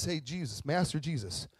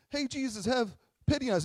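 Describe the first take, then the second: First: Plain, earnest call; sincere appeal. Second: High-pitched mock begging; pitiful pleading. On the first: Acted. Lepers asking Jesus to truly see them, sincere. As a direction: ask simply, with no whining. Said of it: "In this sense, pity is". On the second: Lepers begging Jesus for pity, pitiful pleading. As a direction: plead in a hammed-up poor-me voice. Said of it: "like, I think of".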